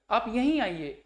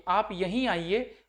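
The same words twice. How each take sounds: First: Said in the usual way. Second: "आप यहीं आइए" read slowly with weight on "यहीं"; a teacher reading "आप यहीं आइए" slowly, stressing "यहीं"; slow stressed reading. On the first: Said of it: "अन्यत्र मतलब दूसरी जगह". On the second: Shown as a demonstration. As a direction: lean on "यहीं", slow and deliberate.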